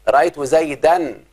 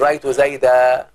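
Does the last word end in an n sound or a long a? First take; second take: n sound; long a. First: The last word ends with an n sound. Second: The last word ends with a long a. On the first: The word is read in the middle of speech. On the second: The word is read at a stop.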